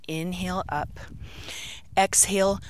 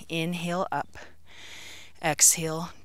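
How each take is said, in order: Both takes have the same delivery.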